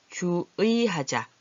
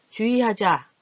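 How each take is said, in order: First: 주의하자 slowly, with 주 and 의 held apart; careful spelled form. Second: 주의하자 said as ju-i, higher and louder; natural spoken form. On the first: Teacher reads the practice sentence, slow careful syllables. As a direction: draw out ju-ui in 주의하자. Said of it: "이렇게 쓸 때는". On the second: Teacher shows how it really sounds, punched ju-i. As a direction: run 주의하자 together with a simple i. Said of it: "이렇게 소리가 나지요". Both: Shown as a demonstration.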